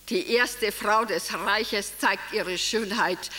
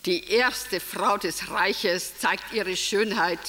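No difference in how they are said.

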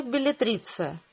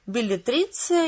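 First: Беллетриция said softer, falling end; beллетриция tried softly, dropping at end; falling trial word. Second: Беллетриция said slowly, weighed; slow trial word. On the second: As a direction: try out Беллетриция slowly, savouring. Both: A narrator's reading. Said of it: "несколько раз повторил".

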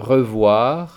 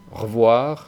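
First: "revoir" with the E said, re-voir; full French revoir. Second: "revoir" squeezed to "rvoir"; dropped E. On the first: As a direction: keep the E in "revoir". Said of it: "Algunos ejemplos". ("revoir" con la E pronunciada) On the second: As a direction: swallow the E of "revoir". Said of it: "tiende a no pronunciarse". ("revoir" sin E) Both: Shown as a demonstration.

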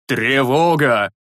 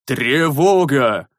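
First: Slow hoarse cry of alarm; hoarse shout. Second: Slow, fuller alarm cry; louder alarm shout. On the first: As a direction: rasp out the alarm, half asleep. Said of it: "хрипло крикнул". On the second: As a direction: call the alarm louder, more awake. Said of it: "Уже куда осмысленнее и громче крикнул". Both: A narrator's reading.

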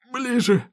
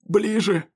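First: Higher, straining hoarse plea; strained, higher hoarse call. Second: Wounded man calling someone closer; strained, hoarse beckoning; coughing, hoarse call. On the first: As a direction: push it out, high and strained. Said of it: "кашляющий Смоук". (напряжённый, высокий хриплый зов) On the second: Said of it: "поманил меня рукой кашляющий Смоук". (хриплый, кашляющий зов) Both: Acted.

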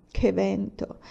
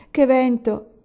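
First: Mild lament. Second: Louder, higher wail on "che vento!"; lament rising. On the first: (lamento sommesso su "Che vento") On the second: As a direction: cry out "che vento!" in complaint. ("che vento!" gridato più forte e più acuto) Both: A narrator's reading. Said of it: "si lamentò poi Olì".

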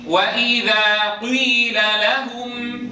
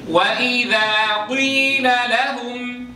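First: وإذا قيل لهم recited very slowly, قيل with a u colour; slow recited ishmam. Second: قيل لهم chanted slowly like Quran recitation; chanted, intone قيل لهم slowly, melodic. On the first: (ترتيل قيل ببطء مع الإشمام) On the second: (chanted, تجويد قيل لهم ببطء) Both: Shown as a demonstration. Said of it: "يشم الكسر ضما".

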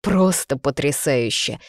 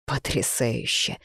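First: Slow, firmer bitter exclamation. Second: Low, slow, soft bitterness; bitter. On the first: Man drives home his shock to her, bitterly emphatic. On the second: Man reacts to the pregnancy news, quietly bitter. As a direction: drop it low and drag it out bitterly. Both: A narrator's reading. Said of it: "Горько рассмеялся мужчина".

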